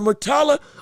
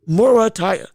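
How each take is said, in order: First: The name is said ending in a 'la' sound. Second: The name is said ending in a 'ya' sound. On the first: The speaker calls it wrong. "I think I've been pronouncing his name wrong" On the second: The speaker calls it right. "I think that's actually how you say it"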